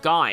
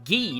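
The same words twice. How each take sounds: First: The name is pronounced the English way. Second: The name is pronounced the French way. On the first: The speaker calls it wrong. "not Guy" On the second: The speaker calls it right. "that's how it's pronounced ... Apparently it's French"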